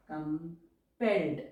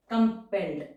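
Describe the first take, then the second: First: Drawn out word; slow dictation. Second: Said in the usual way. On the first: Shown as a demonstration. Teacher dictating an English phrase to shorthand students, slowly.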